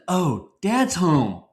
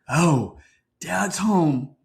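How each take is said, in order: First: It sounds happy and welcoming. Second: It sounds dreading and anxious.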